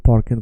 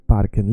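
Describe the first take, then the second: First: Parken said like "porken", with an O; wrong vowel. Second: Said in the usual way. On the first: Shown as a demonstration. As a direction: round the A of parken into an O. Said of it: "It's not parken, by the way". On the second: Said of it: "It's not parken".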